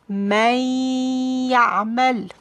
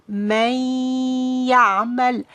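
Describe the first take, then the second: No difference in how they are said.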